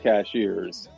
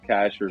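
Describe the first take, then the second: First: The name sounds like 'cashiers'. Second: The name sounds like 'cashers'. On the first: The speaker is not from the area. The speaker calls it wrong. "do not say cashiers" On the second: The speaker is from the area. The speaker calls it right. "what we call the plateau"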